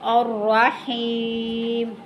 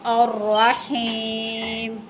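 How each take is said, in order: First: The word ends on the bare consonant m. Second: The same.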